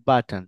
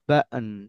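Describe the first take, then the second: First: The middle t is a clear t. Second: The middle t is a glottal stop. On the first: The speaker calls it wrong. "Not বাটন" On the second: The speaker calls it right. "এই টিটা হয়ে যাবে বাটন"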